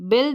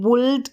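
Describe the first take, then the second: First: The vowel sounds like 'i', as in 'bild'. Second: The vowel sounds like 'u', as in 'buld'. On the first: The speaker calls it right. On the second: The speaker calls it wrong.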